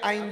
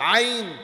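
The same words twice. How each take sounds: First: The letter is said with a plain Bengali sound. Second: The letter is said with Arabic throat articulation. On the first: The speaker calls it wrong. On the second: The speaker calls it right.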